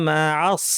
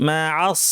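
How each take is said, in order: The two takes are said the same way.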